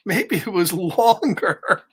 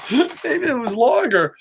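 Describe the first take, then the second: First: Said in the usual way. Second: Said through real laughter; amused, laughing while reading. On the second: Real, not acted. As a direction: giggle the words out. Reads the line, then repeats laughing.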